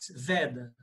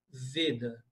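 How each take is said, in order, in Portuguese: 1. O primeiro E é uma vogal aberta. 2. O primeiro E é uma vogal fechada. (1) "Em português" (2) "Mas em sânscrito, Veda, com o E fechado"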